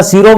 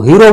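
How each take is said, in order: First: शीरो said with a clear s sound at the start; शीरो, starting on s not h; local s pronunciation. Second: हीरो said with an h sound in place of s; हीरो, starting with a breathy h; Bishnoi h pronunciation. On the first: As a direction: say शीरो with a crisp s. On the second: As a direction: say हीरो, swapping the s for h. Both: Shown as a demonstration. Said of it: "हीरो यानी कि स की जगह ही".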